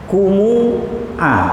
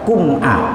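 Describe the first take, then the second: First: A short u vowel follows the m. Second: The m runs straight into the glottal stop. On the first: This is another transmitted reading. "mimnya di doma, di domanya satu alif" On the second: This is the reading normally followed. "Kalau kita tetap kum'a"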